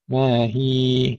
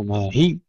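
First: ما هي with a smooth, evenly held final ee; two-count lengthening. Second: ما هي pressed hard on the final ya; wrong stressed ending. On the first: Teacher modelling the correct stop, lengthened ee. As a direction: hold هي gently for two beats. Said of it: "نمدها حركتين". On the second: Teacher showing the error, overstressed final ya. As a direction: tighten and double the end of هي. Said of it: "لا نشدد ولا نحذف". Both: Shown as a demonstration.

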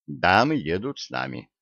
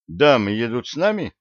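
First: Low, settled statement, "нами" falling; firm confirmation. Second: Surprised query peaking on "нами"; questioning. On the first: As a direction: confirm it evenly, dropping on "нами". Answer echoing the question. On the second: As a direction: ask it, pitch jumping up on "нами". Question, then echoed as answer. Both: A narrator's reading.

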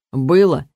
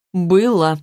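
First: Reluctant. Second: Firm, certain Было with falling tune; confident. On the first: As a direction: admit Было unwillingly. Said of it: "нехотя подтвердил Кир". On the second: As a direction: state Было flatly. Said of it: "уверенно ответил Сен". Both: A narrator's reading.

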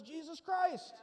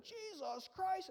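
First: Said in the usual way. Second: High, slow drawn-out mock oath; startled swearing. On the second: Frightened fisherman swears on seeing Jesus, mock oath. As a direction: blurt it as a stretched, frightened curse. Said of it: "Somebody probably swore".

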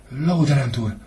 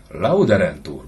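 First: Much higher, a schoolboy rattling off the answer; a small boy answering by rote in class; timid child reciting. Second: Louder, scornful mimicry of the boy; father sneeringly repeats his son's answer; mocking echo. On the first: Acted. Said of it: "rebegte a gyermek gondolkodás nélkül". (félénk gyerek, iskolásan felmondva) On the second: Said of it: "bólogatott csúfondárosan Suhajda". (gúnyosan visszhangozva)

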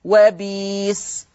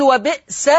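First: وبيس with a long "ee" and no glottal catch; Warsh substitution. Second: وبئس with a glottal catch after "bi"; brief stop on the hamza in وبئس; written hamza form. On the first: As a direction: draw out وبيس slowly as "wa-beees". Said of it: "تقرأ وبيس". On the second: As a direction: say وبئس as "wa-bi'-sa". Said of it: "فيقول وبئس". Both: Shown as a demonstration.

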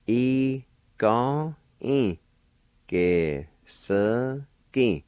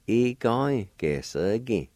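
First: Ge-se-gi drawn out very slowly; slow demonstration. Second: Said in the usual way. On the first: Shown as a demonstration. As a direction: stretch each syllable of E-ga-e, ge-se-gi for learners. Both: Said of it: "And together".

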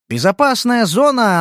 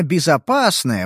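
First: Said in the usual way. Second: Безопасная drawn out slowly, ironic; slow knowing безопасная, with a pause before; ironic stress on безопасная. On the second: A narrator's reading. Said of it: "Безопасная зона, она, конечно".

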